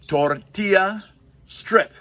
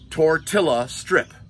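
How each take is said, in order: First: Tortilla is pronounced in a standard way. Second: Tortilla is pronounced in a Midwestern way.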